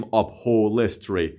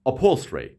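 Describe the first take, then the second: First: Upholstery slowed, with an extra 'e' after the l; wrong pronunciation. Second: Upholstery run together, l straight into -stry; correct quick pronunciation. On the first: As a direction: say upholstery as up-hol-ES-tree, vowel added. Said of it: "به هیچ وجه نمیگیم". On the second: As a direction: say upholstery as up-HOL-stree, no added vowel. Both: Shown as a demonstration.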